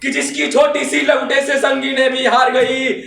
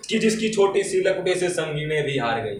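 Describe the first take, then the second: First: High, louder rousing verse; fiery declamation. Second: Said in the usual way. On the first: Acted. Reciter honouring the freedom struggle, fiery declamation. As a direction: proclaim it to the whole hall. Verse repeated at full force.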